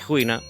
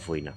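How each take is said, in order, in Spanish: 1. El primer sonido es parecido a una h aspirada. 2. El primer sonido es una f clara. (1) "es muy común que se aspire la F" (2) "y non"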